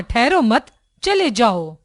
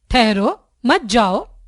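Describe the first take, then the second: First: ठहरो मत joined, a break, then चले जाओ; pause after मत. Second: ठहरो set apart, a short break, then मत जाओ; pause after the first word. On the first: Teacher explains the second sentence's meaning, pausing after मत. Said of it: "मत के बाद रुकने से". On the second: Teacher explains the first sentence's meaning, pausing after ठहरो. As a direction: stop after ठहरो, then give मत जाओ as one phrase. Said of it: "रुको के बाद कुछ रुकने से". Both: Shown as a demonstration.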